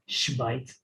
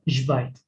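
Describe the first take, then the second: First: The first consonant is a voiceless sh sound. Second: The first consonant is a voiced zh sound. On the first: The speaker calls it wrong. "You don't say shvait" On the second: The speaker calls it right. "This is how you pronounce the X, the sh, of this word"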